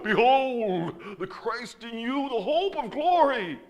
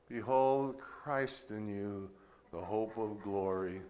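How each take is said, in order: First: It is said with powerful, zealous emotion. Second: It is said in a flat, gloomy tone. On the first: The words carry strong power. "it conveys more power ... full of zeal" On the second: The words carry little power. "Eeyore, that has one kind of tonality"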